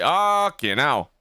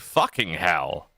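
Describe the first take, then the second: First: The H and final consonants are dropped. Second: The H and final consonants are fully pronounced. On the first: This is the speaker's usual way of saying it. "I usually just say fucking hell" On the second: The speaker is drunk and speaking unusually. "I'm actually pronouncing the S"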